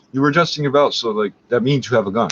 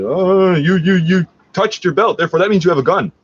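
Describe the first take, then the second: First: Said in the usual way. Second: Higher and louder, a hammed-up accusing cop; mocking the cops. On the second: Cops rolling up on him, hammed-up accusing. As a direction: parody a jumpy cop making a wild claim. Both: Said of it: "rolled up on me and said".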